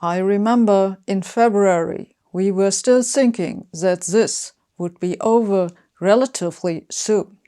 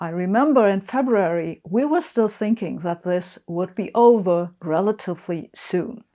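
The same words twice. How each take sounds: First: The th sounds are replaced by a z sound. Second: The th sounds are pronounced as normal English th. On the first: "The example sentence then becomes" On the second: "I hope I pronounced this correctly"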